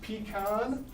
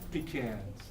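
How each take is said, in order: First: "Pecan" as "pee-kahn", with an open AH; variant "Pecan". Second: "Pecans" as "pee-canz", with a short A; low, soft "Pecans", second vowel as in can; own "Pecans". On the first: Teacher quizzing class, "Pecan" said as "pee-kahn". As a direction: say "Pecan" with a broad second vowel. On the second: Teacher giving own version, "Pecans" said as "pee-canz". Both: Shown as a demonstration. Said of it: "That's what I say".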